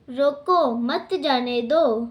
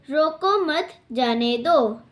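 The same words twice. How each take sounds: First: रोको, then a short break, मत जाने दो run together; pause after रोको. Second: रोको मत run together, short break, then जाने दो; pause after मत. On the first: Teacher showing Neeraj's meaning to stop someone, pause after रोको. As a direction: set रोको apart from मत जाने दो. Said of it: "नीरज ने रोकने के लिए कहा". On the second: Teacher showing Dheeraj's meaning to let someone go, pause after मत. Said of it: "धीरज ने रोकने से मना किया". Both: Shown as a demonstration.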